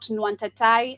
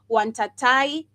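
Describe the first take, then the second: First: The word starts with an n sound. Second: The word starts without an n sound. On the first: The speaker calls it wrong. "not Nwantatai" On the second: The speaker calls it right. "the N is always silent. So I, maybe I should pronounce it Wantatai"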